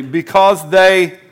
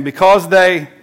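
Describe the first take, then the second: First: Drawn-out emphatic "because they"; congregation call and response. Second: "because they" louder with a falling close; repeated call and response. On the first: Pastor to congregation, leading them to repeat it, drawn out. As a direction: stretch "because they" out slowly, leading the room. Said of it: "say this with me". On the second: Pastor again prompting the room, louder and falling. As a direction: punch "because they" so they echo it. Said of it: "say it again". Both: Shown as a demonstration.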